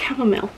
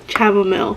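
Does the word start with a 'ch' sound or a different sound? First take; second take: different sound; ch sound. First: It starts without a 'ch' sound. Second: It starts with a 'ch' sound as in chocolate. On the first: The speaker calls it right. "It's chamomile" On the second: The speaker calls it wrong. "like in Spanish the sound is ch, like like chocolate"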